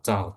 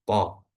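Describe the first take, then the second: First: The consonant is released with a slight breathy hiss. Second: The consonant is released plainly without a hiss. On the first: The speaker calls it wrong. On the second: The speaker calls it right. "tidak memiliki ... sedikit ada desisan"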